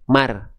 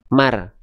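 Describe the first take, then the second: No difference in how they are said.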